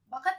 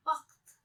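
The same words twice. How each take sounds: First: बखत in two syllables, plain kh, higher; undotted puffed k in बखत; wrong बखत. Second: बख्त as one syllable with throaty kh; nukta बख्त. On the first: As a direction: say बखत as ba-khat. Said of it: "बखत नहीं बोलेंगे". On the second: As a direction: scrape the kh in बख्त. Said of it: "इसे क्या बोलेंगे". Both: Shown as a demonstration.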